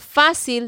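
The c sounds like s, Latin American style.

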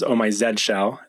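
The letter Z is said the British way. "for our European friends or English friends"

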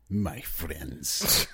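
It is said in a Russian accent.

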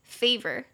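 It is said with an American accent. "所以如果美式的话应该是favor"

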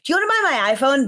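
It is said with lively enthusiasm.

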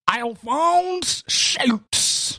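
It is said with a Southern US accent.

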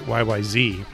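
It is said the American way.

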